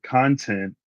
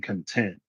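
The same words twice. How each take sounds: First: CONTENT stressed on CON, as in videos; first-syllable stress. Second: CONTENT stressed on TENT, meaning satisfied; second-syllable stress. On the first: Explaining English stress to viewers, content stressed up front as CON-tent. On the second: Explaining English stress to viewers, content stressed at the end as con-TENT. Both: Shown as a demonstration. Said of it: "So the difference between".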